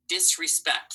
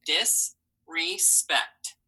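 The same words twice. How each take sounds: First: Said in the usual way. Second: Disrespect said slowly, each syllable pulled apart. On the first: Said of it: "Let's try the word disrespect". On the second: Shown as a demonstration. Teacher models Disrespect slowly for the class, syllable by syllable. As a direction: stretch Disrespect out into dis, re, spect. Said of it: "Three syllables".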